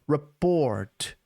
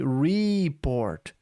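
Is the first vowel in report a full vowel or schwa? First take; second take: schwa; full. First: The first vowel is a reduced schwa sound. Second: The first vowel is a full E sound. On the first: "A letra E ficou um som de A, que é a vogal schwa" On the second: "Ela não disse report"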